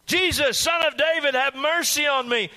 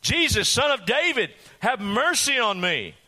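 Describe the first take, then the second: First: Much higher, louder begging shout; frantic shout. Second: Desperate cry. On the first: Blind beggar shouts to Jesus over the crowd, frantic shout. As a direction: scream it at the top of your lungs. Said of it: "absolutely beyond their control". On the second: Blind beggar calls to Jesus over the crowd, desperate cry. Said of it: "no way this blind man's going to shut up". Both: Acted.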